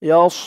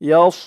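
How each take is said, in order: The two takes are said the same way.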